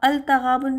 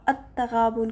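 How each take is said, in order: First: The L of the article is clearly pronounced. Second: The L is dropped and the T doubled. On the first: The speaker calls it wrong. "नहीं पढ़ेंगे" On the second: The speaker calls it right. "लाम साकिन स्किप हो जाएगा"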